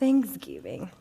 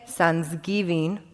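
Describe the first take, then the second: First: The word is said without a foreign accent. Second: The word is said with a foreign accent. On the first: This is how others expected it to be said. "instead of Thanksgiving" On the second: This is how the speaker said it as a child. "I said Thanksgiving"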